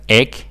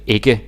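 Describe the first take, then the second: First: The word is shortened to one clipped syllable. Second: The word is said fully with both syllables. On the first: This is how people from Zealand say it. "if you're from Sealand or Sjælland, then you kind of say it like egg" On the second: This is the full form Zealanders do not use. "You don't say ikke. You don't say it fully"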